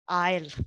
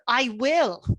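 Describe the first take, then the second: First: The words are contracted into one syllable. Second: Both words are said in full.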